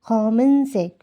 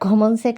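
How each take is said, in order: First: The word is said with Korean-style sounds. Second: The word is said with Bengali-style sounds. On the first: The speaker calls it right. "এটা হবে 검은색" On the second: The speaker calls it wrong. "But গমন শেখ না"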